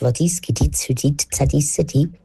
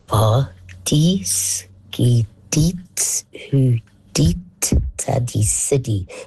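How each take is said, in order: First: It is said quickly, running together. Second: It is said slowly and clearly.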